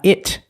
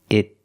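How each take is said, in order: First: The final T is released with a burst of air. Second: The final T is stopped, with no release. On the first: The speaker calls it wrong. "not it" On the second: The speaker calls it right. "The T in the first it is a stop T"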